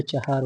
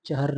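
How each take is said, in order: First: चहार as cha-haar; correct form चहार. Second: चहर as quick cha-har; wrong form चहर. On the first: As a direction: say चहार with long aa after h. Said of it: "होता है". (चहार, 'हा' लंबा बोलकर) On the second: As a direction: say चहर with short a after h. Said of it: "नहीं होता है". (चहर, 'ह' पर छोटा अ) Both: Shown as a demonstration.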